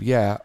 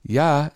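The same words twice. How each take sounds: First: Said in the usual way. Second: "yeah" said as "ya", open ah vowel like the Yooper dialect; "yeah" with a Scandinavian "ya" sound. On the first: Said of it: "instead of". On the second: Shown as a demonstration. Explaining the Yooper dialect, "yeah" said as "ya". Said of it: "so they say".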